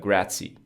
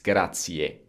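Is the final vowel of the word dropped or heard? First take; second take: dropped; heard. First: The final vowel is dropped or barely heard. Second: The final vowel is clearly heard at the end. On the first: The speaker calls it wrong. "They would say something like grazie" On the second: The speaker calls it right. "You do hear that e uh, at the end"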